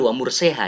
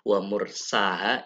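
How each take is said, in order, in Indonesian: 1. Vokal setelah s condong ke e. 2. Vokal setelah s adalah a terbuka penuh.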